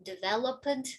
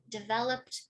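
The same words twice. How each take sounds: First: The ending is said as an extra syllable. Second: The ending is a short final consonant cluster. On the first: The speaker calls it wrong. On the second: The speaker calls it right.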